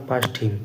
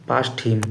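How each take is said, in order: The two takes are said the same way.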